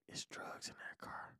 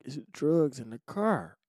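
First: Slow, hushed confession; secretive whisper. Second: Said in the usual way. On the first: Retold or imitated. Sister warns brother near police, secretive whisper. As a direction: imitate a furtive warning, fully whispered.

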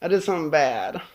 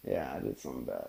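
First: Said in the usual way. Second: Much lower and softer, rushed; low quick mutter. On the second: Acted. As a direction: drop the voice down and rush it. Teasing confession of a prank.

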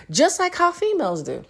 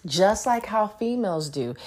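First: Pitched up much higher; high mocking take. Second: Said in the usual way. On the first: Shown as a demonstration. Repeating the jab about females, high and mocking. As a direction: toss it off high and sassy.

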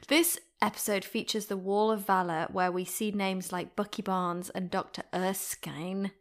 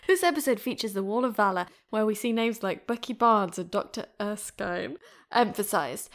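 First: Said in the usual way. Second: Louder retake. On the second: Shown as a demonstration. Host retakes the intro line, now louder and brighter. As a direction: redo the line with more energy and volume. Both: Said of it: "let me do this again".

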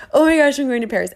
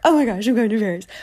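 First: Higher, louder, fast giddy chant; fast and louder, bubbling over; even more excited. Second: Fast, giddy chant; bubbly rushed squeal; excited. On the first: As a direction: squeal it as the excitement peaks. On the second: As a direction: bounce the words like a kid in line. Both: Retold or imitated. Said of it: "just bouncing".

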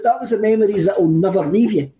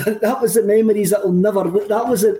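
First: Said in the usual way. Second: Laughing. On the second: Real, not acted. Laughing at a clip while retelling.

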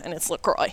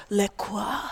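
First: 'LaCroix' said "luh-KROY", the plain American way; settling the debate with 'LaCroix' as "luh-KROY"; plain American pronunciation. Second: 'LaCroix' said softly as "lih-kwah", French style; mocking a pretentious relative who says 'LaCroix' as "lih-kwah"; pretentious pronunciation. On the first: Retold or imitated. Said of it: "He said". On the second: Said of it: "He is so pretentious and always says".

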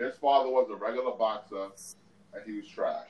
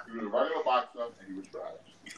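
First: Talking while eating; mouth full. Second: Chewing through the words; mouth full. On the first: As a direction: speak through a mouthful. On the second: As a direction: talk round a bite of food. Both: Real, not acted. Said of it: "I'm eating right now".

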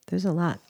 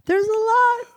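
First: Said in the usual way. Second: Very high squeaky repeat. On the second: Pretend. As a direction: squeak it out like a cartoon.

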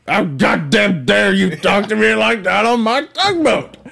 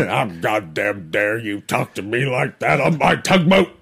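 First: Put-on higher, indignant old captain; outraged tugboat captain shouting; angry boat captain. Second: Put-on gruff old sea captain; angry old tugboat captain; old boat captain. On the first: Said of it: "bad impressions of a fat tugboat captain". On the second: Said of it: "Be an old boat captain".

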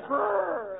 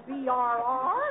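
First: "brr" drawn out as one shivering sound; "brr" said like someone freezing; shiver sound as one word. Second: "B R R" said as three separate letters; name each letter of "B R R"; mocking letter-by-letter reading of "B R R"; shiver word spelled out. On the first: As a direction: run "brr" together slowly, no letters. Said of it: "you say brr". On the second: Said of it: "You don't say B R R". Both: Shown as a demonstration.

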